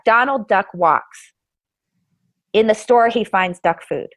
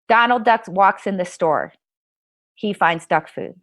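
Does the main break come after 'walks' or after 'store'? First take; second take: after walks; after store. First: The main break comes right after 'walks'. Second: The main break comes right after 'store'. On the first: The duck finds food while in the store. "identical word strings ... but that had different grammar" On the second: The duck walks into the store, then finds food. "the grammatical structure is completely different"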